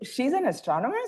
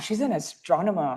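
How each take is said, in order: First: It sounds doubtful, like a disbelieving question. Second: It sounds amazed and impressed.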